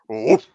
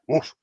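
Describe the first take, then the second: First: The bark is deep and guttural. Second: The bark is high-pitched and rhythmic. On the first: The dog is working in defense, showing power. "deep guttural bark" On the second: The dog is excited and working in prey. "rhythmic woof ... high pitched voice"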